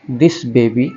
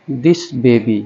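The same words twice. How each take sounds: The two takes are said the same way.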